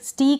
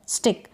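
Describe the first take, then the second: First: The vowel is long, like 'ee'. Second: The vowel is short, like 'i' in 'sit'. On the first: The speaker calls it wrong. "स्टीक नहीं हो रहा है" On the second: The speaker calls it right. "छोटा हो रहा है"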